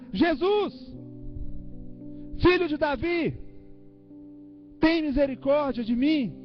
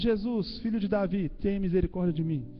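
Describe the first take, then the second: First: It is shouted loudly with great intensity. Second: It is said in a calm, normal voice.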